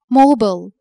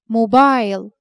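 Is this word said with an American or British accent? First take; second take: American; British. First: It is said with an American accent. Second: It is said with a British accent.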